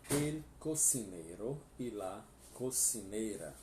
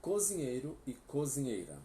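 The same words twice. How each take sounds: First: Spanish teacher model; Spanish pronunciation. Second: Said in the usual way. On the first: Shown as a demonstration. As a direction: say El cocinero e la cocinera in clear Spanish.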